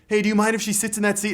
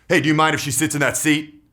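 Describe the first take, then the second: First: It sounds pleading and seeking approval. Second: It sounds hard and commanding, like a cop. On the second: "Rapport breaking is like a cop"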